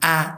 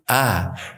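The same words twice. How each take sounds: First: The vowel is not made deep in the throat. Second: The vowel is made deep in the throat. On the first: The speaker calls it wrong. "bukan a" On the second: The speaker calls it right. "tapi a hmm. tenggorokan"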